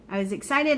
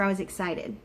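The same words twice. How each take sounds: First: Excited lifted higher and pressed on the repeat; emphatic repeat. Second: Said in the usual way. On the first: Real, not acted. Telling viewers about transfer day, emphatic repeat. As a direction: say it again, leaning on excited with a higher pitch.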